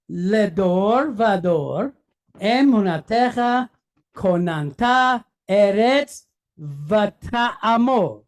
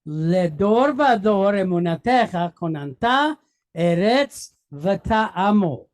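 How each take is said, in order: First: לדור ודור phrase by phrase, with pauses; measured read, a break after ודור, אמונתך, כוננת and ארץ; reading together. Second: לדור ודור run on fluently into אמונתך כוננת; rolling off the tongue. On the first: Teacher leading the class reading together, לדור ודור in separated words. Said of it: "So let's read it together". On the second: Teacher repeating the sentence with the class, אמונתך כוננת flowing smoothly. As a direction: join אמונתך כוננת quickly, then ארץ ותעמוד in one go. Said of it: "rolls right off the tongue". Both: Shown as a demonstration.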